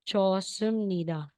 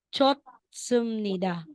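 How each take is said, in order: First: No T sound, only a strong S. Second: A T sound is heard before the S. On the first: The speaker calls it right. "kailangan siyang i-drop pa rin. Kaya magiging 좋습니다" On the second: The speaker calls it wrong. "kung babasahin natin 'yan na walang rule"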